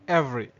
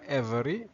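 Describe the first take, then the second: First: The middle vowel is dropped, giving two syllables. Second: The middle vowel is pronounced, giving three syllables. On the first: The speaker calls it right. "C'est comme si on avalait le V et le E" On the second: The speaker calls it wrong. "On ne dit pas every"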